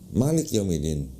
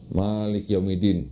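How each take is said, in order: First: The vowels are short and quick. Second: The vowels are drawn out long. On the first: This is how it is read in Morocco. "cepet dia, nggak nggak dipanjangin gitu" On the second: This is how it is read in Indonesia. "Misalnya di Indonesia, kalau kita baca"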